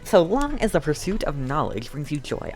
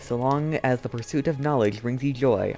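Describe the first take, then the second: First: It is read in an imitated character voice. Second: It is read in the speaker's own normal voice.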